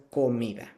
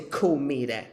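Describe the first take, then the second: First: Comida in a Latin Spanish accent, soft d; authentic Spanish accent. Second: Comida in an English-speaker's accent, hard d; mock a learner's anglicized Spanish accent on "comida"; non-native Spanish accent. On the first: Teacher showing learners the authentic word, Spanish accent on comida. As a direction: say "comida" as a native Spanish speaker would. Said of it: "say it with an authentic, uh, Latin, um, Spanish accent". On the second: Teacher warning learners what not to say, anglicized accent on comida. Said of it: "Don't say comida". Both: Shown as a demonstration.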